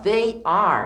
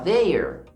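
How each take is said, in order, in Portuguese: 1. Duas palavras separadas são ditas por extenso. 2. As duas palavras se fundem em uma sílaba contraída. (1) "em vez de falar they are" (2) "eu posso falar they're"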